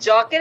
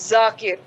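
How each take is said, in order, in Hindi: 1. नाम की शुरुआत 'j' की आवाज़ से होती है। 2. नाम की शुरुआत 'z' की आवाज़ से होती है। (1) "it's not जाकिर" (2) "it's जाकिर"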